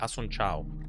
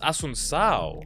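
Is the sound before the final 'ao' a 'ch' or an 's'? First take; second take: ch; s. First: The final syllable starts with a 'ch' sound. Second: The final syllable starts with an 's' sound. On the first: The speaker calls it wrong. "that's a ch" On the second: The speaker calls it right. "it's Asun Sao"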